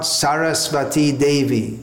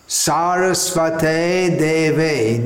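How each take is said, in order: First: The first word ends with an 'ee' vowel. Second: The first word ends with an 'ay' vowel. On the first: The speaker calls it wrong. "not Sarasvati Devi" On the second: The speaker calls it right. "we should be chanting Sarasvate Devi"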